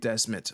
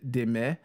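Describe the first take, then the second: First: The name is said with an English pronunciation. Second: The name is said with a Belgian pronunciation. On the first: "y'all Anglophones, feel free to pronounce his name Desmet" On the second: "he's Belgian, which is why I pronounce his name De- Deme"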